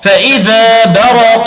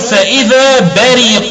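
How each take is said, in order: First: The r is followed by an a vowel. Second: The r is followed by an i vowel. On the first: "قرأ نافع بفتح الراء فيقول برق" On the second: "وقرأ الباقون بالضد وهو الكسر"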